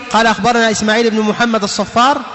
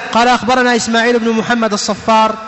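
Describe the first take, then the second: No difference in how they are said.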